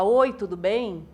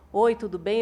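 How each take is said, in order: First: The voice is projected outward, more strongly. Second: The voice is not projected, said plainly.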